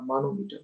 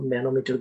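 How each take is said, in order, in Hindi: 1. पहला स्वर लंबा 'aa' वाला है। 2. पहला स्वर छोटा है, 'man' जैसा। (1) "मैं नाम बेकार बोल रहा" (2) "इसको मैनोमीटर बोलते हैं"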